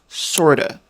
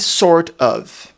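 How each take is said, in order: First: The two words run together quickly as one. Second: The two words are said separately and fully.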